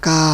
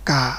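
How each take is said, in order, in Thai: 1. พยางค์ ka ออกเสียงด้วยเสียง tri 2. พยางค์ ka ออกเสียงด้วยเสียง ek (1) "ไมตรีกา ... เสียงขึ้น" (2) "ไม่เอก"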